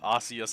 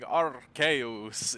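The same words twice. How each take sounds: First: It is said in a plain, ordinary accent. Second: It is said in an exaggerated, funny accent. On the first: "every time I say the word" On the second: "it is funny accent"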